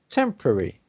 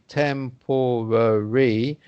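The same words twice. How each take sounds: First: The middle syllables are shortened and reduced. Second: The middle syllables are fully pronounced. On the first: The speaker calls it right. "we say temporary" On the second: The speaker calls it wrong. "we don't say temporary"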